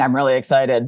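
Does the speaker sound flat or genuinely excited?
flat. It sounds flat and unconvincing.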